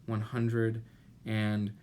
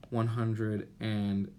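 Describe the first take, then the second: No difference in how they are said.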